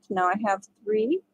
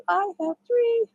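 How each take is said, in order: First: Said in the usual way. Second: "I have three" sung out much higher; sing-song count. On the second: Shown as a demonstration. Counting stitches.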